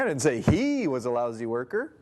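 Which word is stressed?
he. The stress is on the word he.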